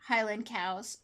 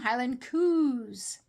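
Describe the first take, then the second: First: Cows is said with the standard 'ow' vowel. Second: Cows is said 'coos' in a Scottish way.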